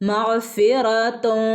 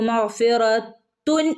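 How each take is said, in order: First: The final n is hidden in a nasal hum. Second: The final n is fully pronounced and clear. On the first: The speaker calls it right. "അവിടെ ഒന്ന് മണിക്കണം. ... മുകളിൽ നാവ് തട്ടരുത്" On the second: The speaker calls it wrong. "മഗ്ഫിറത്തുൻ എന്ന് പറയില്ല"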